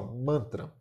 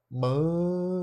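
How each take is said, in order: First: Said in the usual way. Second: "Mantra" with a very long, raised man... then tra; syllable by syllable. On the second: Shown as a demonstration. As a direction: stretch the first syllable of "Mantra", then drop tra in separately. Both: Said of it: "Vamos fazer a separação silaba".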